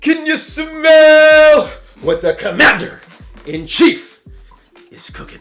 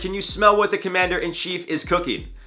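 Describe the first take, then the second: First: It is said in an imitated, put-on voice. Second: It is read out in his normal voice.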